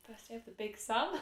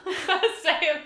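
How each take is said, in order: First: Said in the usual way. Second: High, slow, laughing through words. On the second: Real, not acted. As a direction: giggle it out loud. Repeats phrase while laughing.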